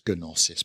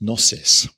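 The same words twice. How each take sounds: First: The initial G is sounded before the N. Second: The initial G is silent before the N. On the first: The speaker calls it wrong. "so you might read it as gnosis, but don't" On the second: The speaker calls it right. "It's got a silent G at the beginning"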